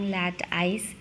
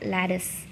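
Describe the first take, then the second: First: The second syllable sounds like 'ice'. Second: The second syllable sounds like 'iss'. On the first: The speaker calls it wrong. "all this time I have been using lat ice" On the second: The speaker calls it right. "Actually it is lad lattice"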